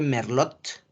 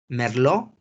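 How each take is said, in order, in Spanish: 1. La T final se pronuncia. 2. La T final es muda. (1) "se escribe Merlot" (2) "pero la T no se pronuncia"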